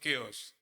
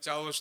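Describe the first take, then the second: First: The word begins with a k sound. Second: The word begins with a ch sound. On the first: The speaker calls it right. "चाओस नहीं केओस" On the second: The speaker calls it wrong. "मैंने चाओस बोला था, भाई ने बोला चाओस नहीं"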